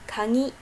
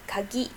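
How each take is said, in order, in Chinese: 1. g 读成鼻音 ng。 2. g 读成普通的浊音 g。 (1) "如果读成鼻浊音" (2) "读成一般的浊音就可以了"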